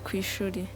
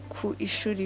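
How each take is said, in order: First: Ku and ishuri blend into one word, kwishuri. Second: Ku and ishuri are said as separate words. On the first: The speaker calls it right. "we say kwishuri" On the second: The speaker calls it wrong. "We don't say ku ishuri"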